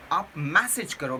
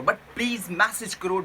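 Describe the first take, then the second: First: Said in the usual way. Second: please leaned on in a pleading way; please stressed, then message करो said evenly; stress on please. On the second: Shown as a demonstration. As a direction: press the word please, the rest plain.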